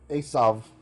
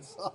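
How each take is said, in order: First: The name ends in a clear v sound. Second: The name ends in a vowel sound.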